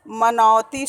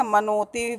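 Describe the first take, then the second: First: मनौती with open "au" in the middle; correct diphthong. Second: मनोती with plain "o" in the middle; mispronounced diphthong. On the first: Teacher giving the correct word, मनौती with open "au". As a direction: say मनौती as "manautee", loud and clear. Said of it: "मनौती शब्द होता है". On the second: Teacher quoting pupils' error, मनोती with "o" for "au". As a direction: say मनोती as "manotee". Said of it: "गलत है जो कि". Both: Shown as a demonstration.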